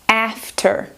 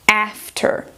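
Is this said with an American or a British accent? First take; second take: American; American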